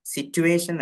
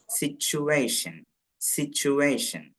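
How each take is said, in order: First: Situation said with a plain T sound; teacher demos the wrong "സിറ്റുവേഷൻ" with a hard t. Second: Slow "സിറ്റുവേഷൻ" with tu said as chu; "സിറ്റുവേഷൻ" drawn out, chu sound in the middle; correct pronunciation. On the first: Teacher warns students against the wrong "സിറ്റുവേഷൻ" with a plain t. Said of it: "ച് എന്നുണ്ടാവരുത്". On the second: Teacher models "സിറ്റുവേഷൻ" slowly for students, tu as chu. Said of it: "ചു എന്ന് വായിക്കും". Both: Shown as a demonstration.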